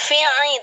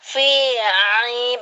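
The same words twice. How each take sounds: First: The first vowel is short and unstressed. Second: The first vowel is long and emphasized. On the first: The speaker calls it wrong. "Jangan fi'i" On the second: The speaker calls it right. "tapi fi'i penekanan ... fi-nya panjang"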